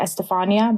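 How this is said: The name is said with an American pronunciation. The speaker calls it wrong. "in America, people usually say"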